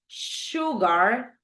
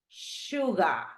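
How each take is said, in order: First: It is said with an American English accent. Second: It is said with a British English accent. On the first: "American English" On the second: "British English"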